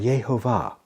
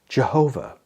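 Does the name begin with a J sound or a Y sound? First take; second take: Y sound; J sound. First: The name begins with a Y sound. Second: The name begins with a J sound. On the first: The speaker calls it right. "has a Y sound, so two likely pronunciations would be something like Yahweh or Yehovah" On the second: The speaker calls it wrong. "Some people say that it is pronounced Jehovah. However, there is no J sound in Hebrew"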